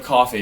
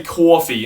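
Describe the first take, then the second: First: Said in the usual way. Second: "coffee" with a rounded "aw" in the first syllable; "coffee" as a New Yorker's "cawfee"; New York-style coffee. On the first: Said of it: "instead of coffee". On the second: Shown as a demonstration. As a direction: say "coffee" like "caw-fee". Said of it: "people say coffee instead of coffee".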